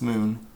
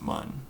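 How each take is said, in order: First: The vowel is a long 'oo' sound. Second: The vowel is a short 'uh' sound. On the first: The speaker calls it right. "but it's actually pronounced moon" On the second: The speaker calls it wrong. "which I used to pronounce it mun"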